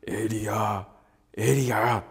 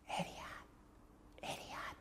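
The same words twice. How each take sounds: First: Low rumbling call of a name; deep voice of God calling Elijah; booming God voice. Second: Soft whispered call; God whispering Elijah's name. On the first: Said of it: "というような。". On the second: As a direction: breathe the name close to the ear. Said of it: "静かにささやく声、". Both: Shown as a demonstration.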